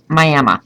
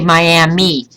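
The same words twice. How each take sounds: First: Miami is pronounced as the Oklahoma town is. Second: Miami is pronounced as the Florida city is. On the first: "In Oklahoma, it's Miami" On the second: "They say Miami, Florida"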